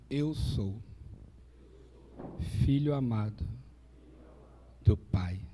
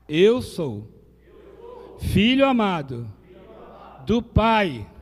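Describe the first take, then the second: First: It is said calmly, without extra force. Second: It is said with strong conviction.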